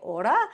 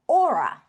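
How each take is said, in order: First: The word has a Māori pronunciation. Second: The word is pronounced like English aura. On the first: Listeners in Australia did not understand it. "Aussies don't know what I'm saying when I say order" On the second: Listeners understood it but spelled it wrongly. "So I ended up pronouncing it Aura"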